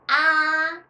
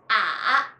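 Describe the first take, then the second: First: The pitch stays high and level. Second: The pitch dips low, then rises. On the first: "The first is" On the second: "and third"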